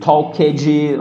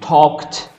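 First: The -ed ending is said as an extra syllable. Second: The -ed ending adds no extra syllable. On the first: The speaker calls it wrong. "Não fale talked" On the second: The speaker calls it right. "fale talked"

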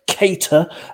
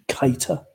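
First: The first syllable sounds like Kate. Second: The first syllable sounds like kite. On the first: The speaker calls it right. "as in Kate Ady, Kate Moss, or Kate Winslet" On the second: The speaker calls it wrong. "we do not tolerate the pronunciation Keita"

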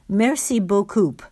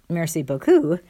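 First: The last syllable ends with a p sound. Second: The last syllable ends without a p sound. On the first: "Joey would pronounce it coop, like a car" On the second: "Not merci beaucoup, though"

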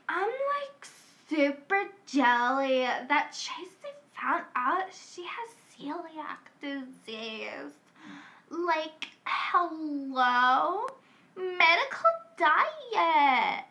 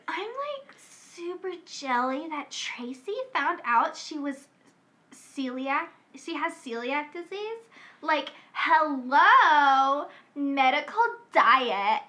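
First: A drunk Valley girl voice is used. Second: A sober Valley girl voice is used.

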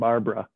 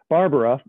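First: The name is said with two syllables. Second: The name is said with three syllables. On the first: "the shortened Barbara" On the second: "or three if you insist upon pronouncing Barbara"

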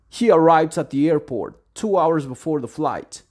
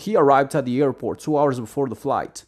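First: The sentence is said at a slower pace. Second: The sentence is said at a faster pace.

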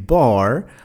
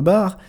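First: It is said with an American English pronunciation. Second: It is said with a French pronunciation. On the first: The speaker calls it right. "bar en anglais américain" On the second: The speaker calls it wrong. "le mot bar ne se prononcera pas bar"

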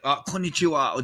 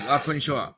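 First: The greeting sounds warm and passionate. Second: The greeting sounds flat and indifferent.

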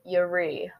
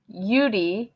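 First: The middle consonant sounds like an 'r'. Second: The middle consonant sounds like a 'd'. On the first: The speaker calls it right. "You say it Yuri" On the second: The speaker calls it wrong. "the Yudi is not how you would say Yuri"

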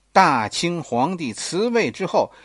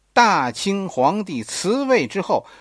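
Both takes have the same delivery.

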